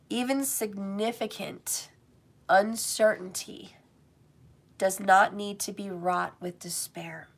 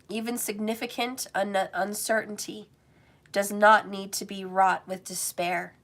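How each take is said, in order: First: It is read slowly. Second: It is read at normal speed.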